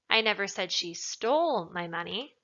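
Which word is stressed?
stole. The word 'stole' is emphasized. She took it but did not necessarily steal it. "Implies that maybe she took it, but she didn't steal it necessarily"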